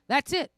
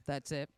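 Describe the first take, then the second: First: That's it, squealed high and loud; shrieked punchline. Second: Said in the usual way. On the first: Shown as a demonstration. Comic shrieking the punchline to the crowd, high and loud. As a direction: shriek the words out, much higher and louder.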